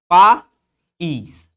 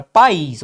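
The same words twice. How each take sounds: First: "país" broken in two, pa, then ís, with a gap; split into syllables. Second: Said in the usual way. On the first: Shown as a demonstration. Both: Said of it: "que tem essa separação silábica".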